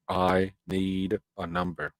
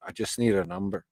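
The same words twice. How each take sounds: First: "I need a number" spaced out slowly; measured, emphatic restatement of "I need a number"; slow, deliberate insistence. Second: Said in the usual way. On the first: Real, not acted. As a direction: spell out "I need a number" word by word. Slow emphatic repeat of the demand.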